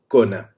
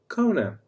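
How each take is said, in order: First: It is said with a native Portuguese accent. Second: It is said with an English-sounding accent. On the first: "if you want to say it in real Portuguese" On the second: "Like corona, but just cona"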